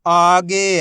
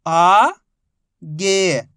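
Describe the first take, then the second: First: Whole word in one joined, drawn-out piece; teacher's blended model reading; syllables blended. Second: Each syllable held, long pause between; first syllable rising, then a separate second. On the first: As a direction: join the sounds into one loud, clear word. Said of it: "आपस में मिला के पढ़ना है". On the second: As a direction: sound it out for beginning readers. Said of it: "एक ही अक्षर का उच्चारण करके". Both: Shown as a demonstration.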